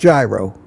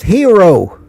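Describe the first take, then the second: First: The word begins with a hard J sound. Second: The word begins with a soft H-like sound. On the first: This is the American pronunciation. The speaker calls it wrong. "not gyro" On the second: This is the Greek pronunciation. The speaker calls it right. "It's pronounced hero"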